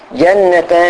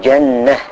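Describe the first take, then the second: First: The word ends with a t sound and tanween. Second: The word ends with a silent h sound. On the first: The word is read in continuous speech. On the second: The reader stops on the word.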